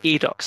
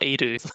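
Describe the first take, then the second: First: The final x sound is pronounced. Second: The final x sound is left silent. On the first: The speaker calls it right. "is that the pronunciation?" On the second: The speaker calls it wrong. "It's not it's not Adu"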